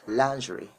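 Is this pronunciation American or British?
British. It is said with a British accent. "if you want to sound British, you have to say lingerie"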